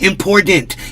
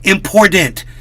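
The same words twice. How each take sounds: First: The middle t sounds soft, like a d. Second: The same.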